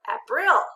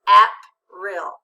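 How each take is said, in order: First: The stress is on the second syllable. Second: The stress is on the first syllable. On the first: "Let's change the accent" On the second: "Read it with the accent"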